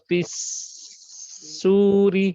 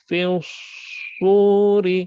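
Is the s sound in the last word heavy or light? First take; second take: light; heavy. First: The s sound is light, with spread lips. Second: The s sound is heavy, with rounded lips. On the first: The speaker calls it wrong. "bukan ونفخ في السور. Sin tu kena kena senyum" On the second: The speaker calls it right. "huruf sod ni, dia mulut kita macam ni... Dia bulat"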